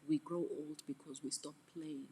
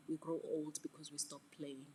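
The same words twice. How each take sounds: The two takes are said the same way.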